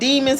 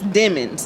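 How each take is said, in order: First: It sounds like the ordinary word demons. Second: It sounds different from the ordinary word demons. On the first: The speaker calls it wrong. "it's spelled like demons" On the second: The speaker calls it right. "but it's Demons. It's the pronunciation"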